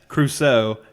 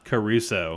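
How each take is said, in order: First: The name is said with two syllables. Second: The name is said with three syllables. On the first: The speaker calls it right. "That's Crusoe" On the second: The speaker calls it wrong. "not Caruso"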